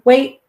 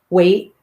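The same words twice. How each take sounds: First: The word is said louder and sharper. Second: The word is said at normal strength.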